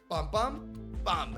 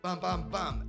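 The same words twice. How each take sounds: First: The three beats come with uneven, broken timing. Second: The three beats come at an even steady rhythm. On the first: The punches are thrown off rhythm to surprise. "lo tira fuera de ritmo" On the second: The punches are thrown in a predictable rhythm. "no hace pam, pam, pam"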